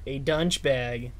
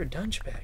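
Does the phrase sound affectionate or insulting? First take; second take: insulting; affectionate. First: It is said in a scornful, insulting tone. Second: It is said in an admiring, friendly tone. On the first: The speaker is insulting the listener. "That is the bad way to say it" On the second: The speaker is complimenting the listener. "The good way to say it is"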